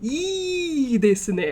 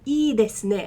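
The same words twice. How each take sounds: First: The first vowel is lengthened very heavily. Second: The first vowel is somewhat lengthened. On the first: The speaker calls it wrong. "I don't need to lean on it super hard" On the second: The speaker calls it right. "I lean on it a bit"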